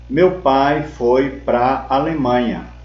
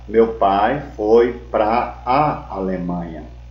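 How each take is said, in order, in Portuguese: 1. A preposição e o artigo se juntam em uma sílaba curta. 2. A preposição e o artigo são pronunciados como palavras separadas. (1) "Pra mais A é igual a contração pra" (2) "Em vez de falar"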